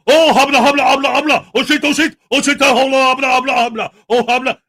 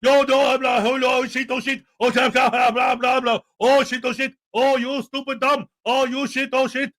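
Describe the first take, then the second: First: Loud, babbling fake Arab accent parody; hammed-up fake Arab accent; mock fake Arab accent. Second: Mock fake Arab accent. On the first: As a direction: imitate a man's bogus Arabic with loud gibberish. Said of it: "fake Arab accent". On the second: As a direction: imitate his bogus Arabic as running gibberish. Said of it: "what he actually says".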